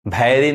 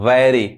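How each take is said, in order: First: The word begins with an aspirated bh sound. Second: The word begins with a soft v sound. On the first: The speaker calls it wrong. "भैरी नहीं" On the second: The speaker calls it right. "व वैरी"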